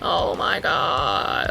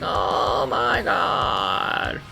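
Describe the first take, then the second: First: The voice is pitched lower. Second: The voice is pitched higher.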